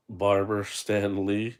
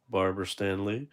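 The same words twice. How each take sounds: First: Barber Stan Lee drawn out slowly and louder; slow read-out. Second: Said in the usual way. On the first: Shown as a demonstration. Reading the figure's nameplate to viewers, slow and loud. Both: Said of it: "it says on the plate right there".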